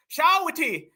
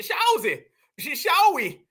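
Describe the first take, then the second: First: Said in the usual way. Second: Shawzy and Shawi with too many vowels, stumbling on Sh-; imitating him fumbling Shawzy and Shawi; mocking a mispronounced Shawty. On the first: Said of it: "He don't even say Shawty right". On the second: Mocking the African guy's bad try at Shawty. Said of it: "He said".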